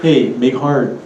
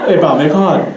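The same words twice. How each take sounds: First: Put-on mainland accent on Pidgin, full r in "hard"; outsider attempting Pidgin. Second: Put-on local Pidgin accent, r dropped in "hard". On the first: Alaskan guy trying to talk like locals, mainland-accented Pidgin. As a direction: imitate a newcomer's stiff Pidgin. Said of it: "he said". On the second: Poker player nudging a friend, local Pidgin accent. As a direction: say it like a Hawaiian local egging on a buddy. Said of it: "try to talk like us".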